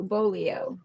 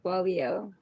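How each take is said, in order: First: "bolio" said very slowly, each syllable spelled out as BO-li-o with a rise; "bolio" drawn out syllable by syllable; careful corrected word. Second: "Bolio" said quickly, starting with a P-like sound, pitch rising at the end; "Bolio" said fast with a rise; first try at the word. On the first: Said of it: "Maybe I didn't say it right". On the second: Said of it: "Oh, I said it right". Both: Shown as a demonstration.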